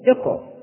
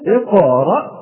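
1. لصوت q صدى خفيف ومعتدل. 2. لصوت q صدى متكلف ومبالغ فيه. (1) "نقول هكذا اقرأ باسم ربك الذي" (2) "لا نقول اقرأ هكذا، هذا تكلف"

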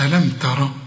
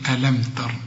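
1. الراء الأخيرة تليها حركة. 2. الراء الأخيرة تُوقف ساكنة بلا حركة. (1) "مش ألم تر" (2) "هتسكن الراء"

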